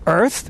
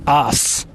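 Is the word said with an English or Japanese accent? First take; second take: English; Japanese. First: It has English 'er' and 'th' sounds. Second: It sounds like 'ass', without 'er' or 'th'.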